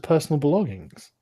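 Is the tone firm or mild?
mild. It is said in a mild, smooth tone.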